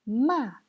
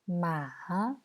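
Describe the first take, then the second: First: The pitch falls sharply from high. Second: The pitch dips low, then rises again. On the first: "Quatrième ton" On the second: "Troisième ton"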